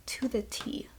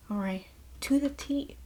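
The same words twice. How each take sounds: First: To the T breathed in a whisper; whispered emphasis. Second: Said in the usual way. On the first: Shown as a demonstration. Vlogger praising the film's mentor arc, whisper. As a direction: whisper it for effect.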